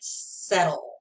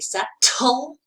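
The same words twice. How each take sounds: First: The middle consonant sounds like a soft D. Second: The middle consonant is a crisp T sound. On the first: "The T sounds like D" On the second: "I don't say settle"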